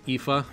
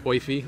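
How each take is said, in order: First: The name is said in its standard pronunciation. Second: The name is said in a common alternative pronunciation. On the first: "I think the correct pronunciation is Aoife" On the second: "So it's Oifi. A lot of people say Oifi"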